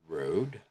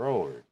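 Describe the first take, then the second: First: "road" with a plain American vowel. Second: "roared" with a drawn-out Irish r vowel; Irish road. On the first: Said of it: "in American". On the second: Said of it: "in Irish". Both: Shown as a demonstration.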